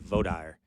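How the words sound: It is said the Texas way.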